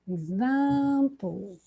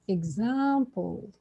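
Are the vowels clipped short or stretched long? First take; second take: stretched; stretched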